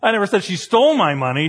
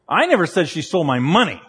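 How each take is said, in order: First: The word stole is stressed. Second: The word money is stressed.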